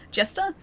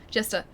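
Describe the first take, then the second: First: Jester said high with a rising, puzzled tune; questioning rise. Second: Said in the usual way. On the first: Real, not acted. Streamer querying an item name, questioning rise on Jester.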